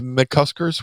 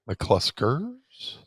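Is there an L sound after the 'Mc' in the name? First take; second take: no; yes. First: The name is said without an L sound. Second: The name is said with an L sound. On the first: The speaker calls it right. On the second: The speaker calls it wrong.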